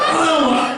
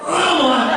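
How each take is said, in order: Both takes have the same delivery.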